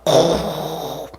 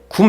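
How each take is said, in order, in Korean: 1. 목 깊은 곳에서부터 끌어올리듯 말합니다. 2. 입 앞쪽에서 평이하게 말합니다. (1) "이 속에서부터 이렇게 마치 부활하듯이 이 속에서부터 뭔가 이렇게 끌어올라오듯이" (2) "굼 이렇게 발음 안 한답니다"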